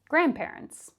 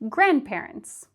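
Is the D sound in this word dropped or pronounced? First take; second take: dropped; dropped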